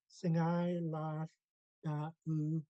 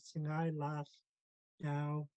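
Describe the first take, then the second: First: A glottal catch splits the final vowels. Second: The final vowels blend into one ow sound. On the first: The greeting is addressed to several people. The speaker calls it right. "the glottal stop divides it" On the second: It is a different sentence without the plural. The speaker calls it wrong. "the double A and the W would be blended together to create an ow sound"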